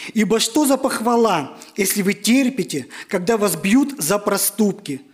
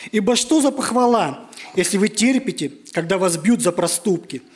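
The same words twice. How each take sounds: Both takes have the same delivery.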